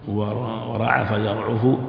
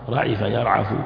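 First: The first verb has u after the 'ain. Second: The first verb has i after the 'ain. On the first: "من باب كرم" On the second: "فيه عن باب سمع"

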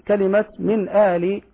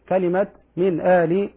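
The two takes are said the same way.

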